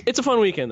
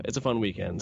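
First: Upbeat and high; excited. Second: Said in the usual way. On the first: Shown as a demonstration. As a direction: sell the fun.

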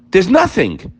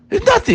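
First: Said in the usual way. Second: "nothing" flung up very high, quick and falling; high emphatic repeat. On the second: Acted. Preacher hammering home to listeners that problems vanish, much higher. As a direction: leap way up on "There's nothing.".

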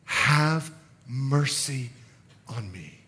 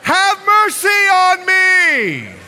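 First: Very slow, soft, low plea; humble plea. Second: High, loud, long-drawn cry; desperate shout. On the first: Beggar simply asking Jesus for mercy, humble quiet plea. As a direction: plead quietly, leaving space between words. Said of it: "in his humility, he simply states". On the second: Beggar desperate to be heard by Jesus, desperate shout. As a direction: bellow the plea over all the noise. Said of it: "this guy is desperate to overcome". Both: Acted.

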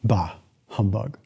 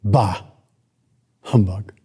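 First: Low, slow, quieter sneer; lower, softer grumble of the miser; grumbling Scrooge. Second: Put-on lower, scornful old miser; a hint of sour old Scrooge; grumpy Scrooge. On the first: Acted. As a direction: drag it out like a bitter old man. Repeats Scrooge's line, lower. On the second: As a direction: spit it out with contempt. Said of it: "Scrooge's response was".

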